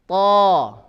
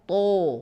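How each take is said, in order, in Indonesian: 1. Mulut terbuka dengan pangkal lidah terangkat. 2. Bibir dimajukan dan dibulatkan. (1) "Buka saja mulut ya. Pangkal lidah terangkat" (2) "bukan ditandai dengan bibir maju. Sehingga tidak boleh kita to"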